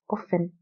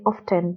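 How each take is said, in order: First: The T sound is silent in the middle. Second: The T sound is pronounced in the middle. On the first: The speaker calls it right. "the correct pronunciation is often. The T is silent" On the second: The speaker calls it wrong. "Some people like to say often"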